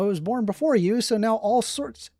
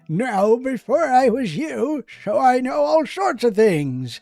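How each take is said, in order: First: It is said in his normal voice. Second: It is said in a put-on character voice.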